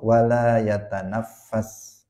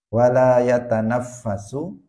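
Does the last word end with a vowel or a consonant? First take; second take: consonant; vowel. First: The last word ends with an s consonant. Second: The last word ends with a final u vowel. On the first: He must not breathe into the vessel. "la-nya la nahiyah" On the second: He does not breathe into the vessel. "la-nya la nafiyah"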